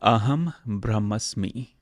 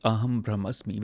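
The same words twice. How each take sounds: First: It is said slowly and carefully. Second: It is said at normal conversational speed.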